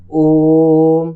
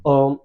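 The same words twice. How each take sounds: First: Loud ओम on one long level tone; prolonged vowel. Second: Brief ओम with no held ओ; short, unprolonged. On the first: Teacher shows class a triple-length vowel, ओम loudly drawn out. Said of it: "जैसे बोलेंगे". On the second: Teacher shows class what not to say, ओम short. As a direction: say ओम short, without stretching it. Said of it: "ऐसे नहीं बोलेंगे". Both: Shown as a demonstration.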